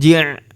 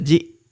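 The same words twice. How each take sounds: First: It is followed by a throaty ain sound. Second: It is followed by a light glottal stop. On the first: The speaker calls it wrong. "bukan ji'" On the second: The speaker calls it right. "Ini huruf hamzah ya, bukan huruf ain. Dibaca ji"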